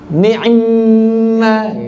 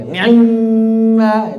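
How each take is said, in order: Both takes have the same delivery.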